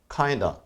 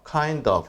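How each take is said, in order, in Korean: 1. 'of'는 빠른 'uh' 소리로 줄어요. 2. 'of'는 완전하고 분명하게 발음해요. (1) "빨리 발음할 때는요... of가 거의 어처럼 발음되는" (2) "자신 없다면 그냥 sort of, kind of 이렇게 하셔도 돼요"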